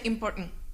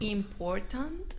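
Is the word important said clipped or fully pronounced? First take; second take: clipped; full. First: The word is clipped, with sounds left unfinished. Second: All sounds of the word are fully pronounced. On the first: "you don't finish the words" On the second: "you don't say important"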